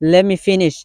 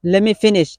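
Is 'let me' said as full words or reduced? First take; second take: reduced; reduced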